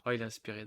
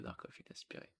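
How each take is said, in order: First: Said in the usual way. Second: Murmured under the breath; whispered aside. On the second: Real, not acted. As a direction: repeat it as a whisper to yourself. Répète le commentaire en chuchotant. (chuchoté pour soi)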